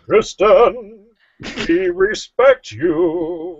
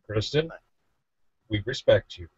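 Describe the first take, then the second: First: It is said with feeling. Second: It is said flatly, without feeling.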